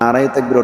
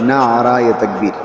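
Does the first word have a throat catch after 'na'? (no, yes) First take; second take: no; yes. First: The first word has no throat catch inside. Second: The first word has a throat catch inside. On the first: The phrase as said has no meaning. The speaker calls it wrong. "এটার কোনো অর্থ নেই।" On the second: The phrase means slogan of God's greatness. The speaker calls it right. "মৌলিক শব্দটা হবে নারায়ে তাকবীর। নুন, আইন, র, হা"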